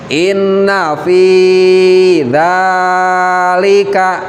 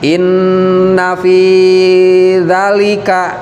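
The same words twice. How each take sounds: First: The first vowel of dzalika is long. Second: The first vowel of dzalika is short. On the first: The speaker calls it right. "tapi harus panjang" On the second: The speaker calls it wrong. "Jangan dibaca"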